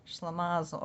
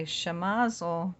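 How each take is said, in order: First: Shlemazel with an L after the opening sibilant; variant with L. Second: Shemazel with no L after the opening sh; variant without L. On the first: Reader lists the word's variants, shlemazel with the L. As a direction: sound the L early in shlemazel. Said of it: "a shemazel". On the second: Reader lists the word's variants, shemazel without the L. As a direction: say shemazel, sh straight into a short vowel. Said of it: "or shlemazel is an uproar". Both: Shown as a demonstration.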